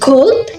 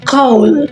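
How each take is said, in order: First: The final 'd' sound is clearly pronounced. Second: The final 'd' sound is left off.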